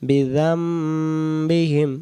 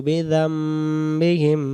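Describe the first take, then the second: No difference in how they are said.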